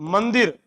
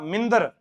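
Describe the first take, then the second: First: The first vowel is an 'a' sound. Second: The first vowel is an 'i' sound. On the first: The speaker calls it right. "मैं है मंदिर" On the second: The speaker calls it wrong. "मैं क्या बोलता था? मिंदर"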